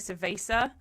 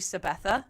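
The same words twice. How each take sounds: First: It is said with an English-style pronunciation. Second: It is said with a Spanish-style pronunciation. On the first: The speaker calls it wrong. "when people say" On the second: The speaker calls it right. "it's actually"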